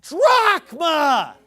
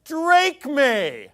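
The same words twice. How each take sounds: First: "drachma" as DRAHK-mah, very loud and slow; exasperated correction, "drachma" stretched to DRAHK-mah; correct pronunciation. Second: "Drachme" as DRAKE-may, loud and drawn out; idiotic, high "Drachme" with an AY ending; mocked mispronunciation. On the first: Shown as a demonstration. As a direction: hammer out "drachma" with open AH vowels. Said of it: "it's pronounced drachma". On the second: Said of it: "sounding like an idiot because he says".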